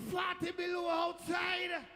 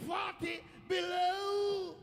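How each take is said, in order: First: High, loud, drawn-out bellow; shocked shout. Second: High bellow, BELOW hugely drawn out; stretched shocked shout. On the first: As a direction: yell it out slowly at the cold. Shock at the freezing cold. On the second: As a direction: shout it very slowly, holding the last word. Repeats the shock, stretched further. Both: Retold or imitated.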